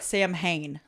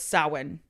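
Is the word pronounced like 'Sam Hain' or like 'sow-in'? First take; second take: Sam Hain; sow-in. First: It is pronounced letter by letter as spelled. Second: It is pronounced with the Irish sounds, like sow-in. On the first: The speaker calls it wrong. "It looks like Sam Hain. Like, that's how it's spelled" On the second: The speaker calls it right. "But the Irish word is Samhain"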